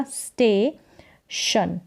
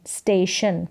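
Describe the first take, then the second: First: स्टेशन very slowly, as स्टे, long pause, शन; split into syllables. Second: Said in the usual way. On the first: Shown as a demonstration. Teacher sounding out for learners, स्टेशन in two slow parts. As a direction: hold स्टे, then add शन separately. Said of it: "एसटी को साथ में". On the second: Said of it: "ये साथ में पढ़ें इसको".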